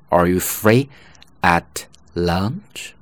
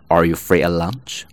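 First: The word at is said in full with t. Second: The word at is weakened with no t sound. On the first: "本来这么读" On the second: "读快的时候呢，更加自然的读法"

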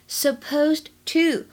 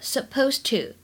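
First: The d sound before to is released. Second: The d sound before to is dropped.

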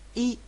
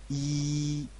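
First: The vowel is short and clipped. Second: The vowel is long and drawn out. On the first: The speaker calls it right. "注意要短而急促" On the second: The speaker calls it wrong. "不能说成一"

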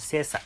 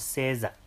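First: The final syllable is weakened and light. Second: The final syllable is said full, not weakened. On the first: The speaker calls it right. "这个十就是要轻化啊" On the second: The speaker calls it wrong. "就不要说成30"

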